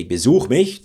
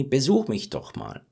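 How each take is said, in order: First: Like an order. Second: Friendly, inviting Besuch mich doch mal; nicer invitation. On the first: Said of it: "then it's more like an order". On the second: Teacher demonstrating a friendly invitation. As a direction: soften it into a welcome. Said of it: "Sounds even nicer". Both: Shown as a demonstration.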